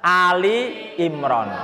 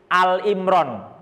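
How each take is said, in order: First: The first word is said as two-syllable 'Ali'. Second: The first word is said as short 'Al'. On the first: The speaker calls it right. "yang benar adalah Ali Imran" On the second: The speaker calls it wrong. "banyak yang salah baca menjadi Al Imran"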